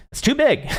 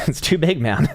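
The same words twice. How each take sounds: First: Shot way up high in mock horror; squeaky disbelief. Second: Laughing. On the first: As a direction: squeal it in disbelief, much higher. Reacting to an oversized chart. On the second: Laughing at the oversized chart. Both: Real, not acted.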